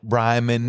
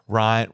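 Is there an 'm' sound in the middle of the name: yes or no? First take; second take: yes; no. First: The name is said with an m sound. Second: The name is said without an m sound. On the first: The speaker calls it right. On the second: The speaker calls it wrong.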